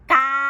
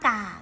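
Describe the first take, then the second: First: The syllable is said on a level mid tone. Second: The syllable is said on a low tone. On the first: "กาเป็นเสียงสามัญ" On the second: "กาเสียงเอก"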